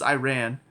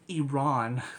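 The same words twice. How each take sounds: First: Iran is pronounced the usual American way. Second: Iran is pronounced the way Iranians say it. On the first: It follows how people at home say it. The speaker calls it right. "because that's how we say it" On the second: It follows how the country's own people say it. The speaker calls it wrong. "we still have to pronounce it like people do in that country now"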